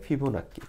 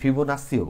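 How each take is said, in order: First: The middle consonant is a doubled k sound. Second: The middle consonant is an s sound. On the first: This is the local way of saying it. The speaker calls it wrong. "আমরা just বাঙালি হিসাবে এটারে আহ, নাক্কি নাক্কি করি" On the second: This is the standard way of saying it. The speaker calls it right. "শুদ্ধ উচ্চারণে ফিবোনাসিও বলে"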